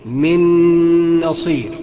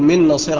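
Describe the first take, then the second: First: The nasal n sound is held longer. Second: The nasal n sound is cut short. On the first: The speaker calls it right. "انما الصحيح من نصير، اغن بمقدار حركتين اتنين" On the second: The speaker calls it wrong. "اقول من نصير على طول، يبقى كده انا بخطأ"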